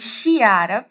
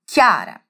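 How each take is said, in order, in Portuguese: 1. O nome começa com um som de sh. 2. O nome começa com um som de k forte. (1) "e não Chiara, só porque temos um CH ali" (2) "O meu primeiro nome é pronunciado assim"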